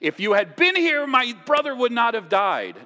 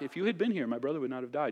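First: It is said in an upset, accusing tone. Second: It is said in a calm, gentle tone.

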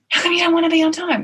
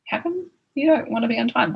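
First: It sounds accusing, not wanting an answer. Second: It sounds genuinely curious, wanting an answer.

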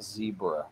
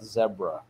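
First: The word is said the non-British way. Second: The word is said the British way. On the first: This is how the speaker's own community says it. "not zebra" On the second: This is how the English cartoon characters say it. "They call it zebra"

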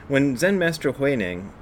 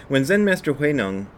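Both takes have the same delivery.

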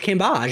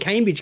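First: It is said with a French-sounding ending. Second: It is said like an ordinary English word. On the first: This is the way the name's owner asked for. "Like, she's not from fucking France" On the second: This is the usual way people say the name. "why the fuck are they calling Cambage"

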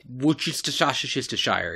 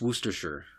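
First: Every written syllable is pronounced as spelled. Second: The word is said in a shortened form. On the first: The speaker calls it wrong. "If you look at it from this" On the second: The speaker calls it right. "no, it's Worcestershire"

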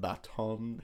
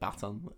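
First: The word is drawn out and lengthened. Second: The word is said at normal length. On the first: The speaker calls it wrong. "You just extended it a little bit the baton" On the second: The speaker calls it right. "but then you said baton"

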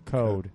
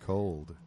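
First: The word is said with no L sound. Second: The word is said with a clear L sound.

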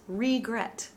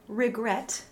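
First: The first vowel is a long, closed ee. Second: The first vowel is a short, open i. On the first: The speaker calls it wrong. "not regret" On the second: The speaker calls it right. "the RE at the beginning is phoneticized as an open uppercase I"

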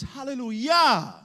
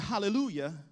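First: The stress is on the last syllable, yah. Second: The stress is on the third syllable, lu.

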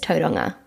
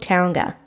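First: The name is said the local native way. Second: The name is said the common everyday way. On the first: The speaker calls it right. "the right pronunciation is Tauranga, from where I was brought up" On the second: The speaker calls it wrong. "it's called Tauranga"

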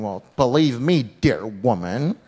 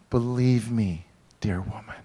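First: It is said in a harsh, scolding tone. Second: It is said in a warm, tender tone.

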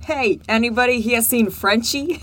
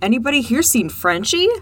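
First: It is said in a New York mobster accent. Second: It is said in the speaker's plain voice.

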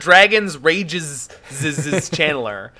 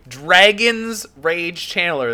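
First: The word after dragon's has two syllables. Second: The word after dragon's has one syllable. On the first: The speaker calls it wrong. "It's not dragon's rages channeler" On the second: The speaker calls it right. "The channeler is channeling a dragon's rage"

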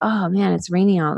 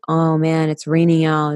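First: It sounds happy and excited. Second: It sounds annoyed and complaining.

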